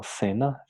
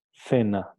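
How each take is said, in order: First: "cena" starting with an s sound; seseo. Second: "Cena" with a Castilian th at the start; tongue between the teeth for the C of "Cena"; C castellana. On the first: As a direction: Latin American "cena", C said as a hissed s. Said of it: "o en América Latina". ("cena" pronunciada con s, con seseo) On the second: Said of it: "la pronuncian". ("Cena" con C interdental castellana) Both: Shown as a demonstration.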